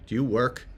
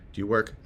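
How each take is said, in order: Both takes have the same delivery.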